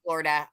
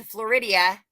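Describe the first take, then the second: First: Florida said properly, FLOR-i-da, quick and matter-of-fact; a brisk, proper Florida right after the joke; correct Florida. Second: Floridia said with an extra syllable, Flor-ID-ee-uh; deliberate silly Floridia, like an old in-joke; jokey Floridia. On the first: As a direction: correct yourself with a plain Florida, fast. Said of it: "I know it's Florida". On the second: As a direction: playfully mispronounce Floridia, stretched to four syllables. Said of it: "I just like to say it's stupid". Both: Shown as a demonstration.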